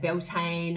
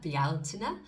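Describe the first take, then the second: First: The name is pronounced in a plain anglicized way. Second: The name is pronounced in an Irish way.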